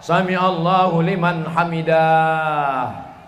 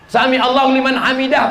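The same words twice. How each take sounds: First: The last word is stretched out long. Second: The last word is said short and quick. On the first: The speaker calls it wrong. "Ini saya pernah dengar imam sholat" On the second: The speaker calls it right.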